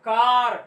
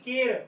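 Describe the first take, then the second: First: The vowel sounds like 'ah'. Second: The vowel sounds like 'eh'. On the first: The speaker calls it right. "यहाँ पे ए आ का आवाज निकालता है" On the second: The speaker calls it wrong. "इस तरह नहीं कि केर"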